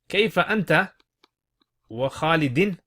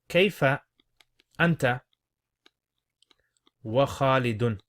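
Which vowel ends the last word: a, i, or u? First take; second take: i; u. First: The last word ends with an i vowel. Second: The last word ends with a u vowel. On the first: It swears by Khalid while asking how the listener is. "how are you wa Khalidin" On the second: It asks how the listener and Khalid both are.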